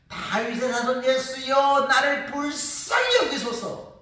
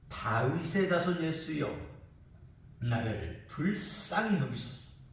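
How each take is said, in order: First: It is cried out in a louder voice. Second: It is said at a more moderate volume.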